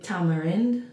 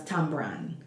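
First: The word is said with three syllables. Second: The word is said with two syllables. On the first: This is how people in this region say it. "they call it here tamarind" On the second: This is how people back home say it. "but we pronounce it as tambran"

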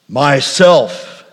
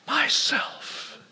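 First: It is said in a very deep, low voice. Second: It is whispered very softly.

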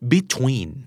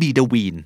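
First: The middle t is not turned into d. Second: The middle t sounds like a quick d. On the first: The speaker calls it right. "นะครับ" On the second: The speaker calls it wrong. "ก็ไม่"

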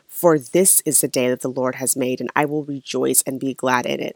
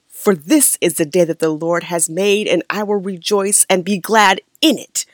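First: It is said in her plain voice. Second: It imitates her childhood pastor's churchy preaching voice.

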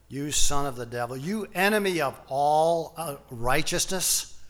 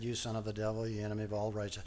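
First: It is said forcefully and confrontationally. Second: It is read flat and monotone.

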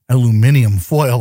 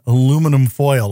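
First: The first word has five syllables. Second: The first word has four syllables.

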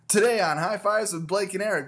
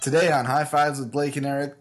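First: It is said with more energy. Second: It is said with little energy. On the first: "More energy" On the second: "I need you to do it again, but more energy"

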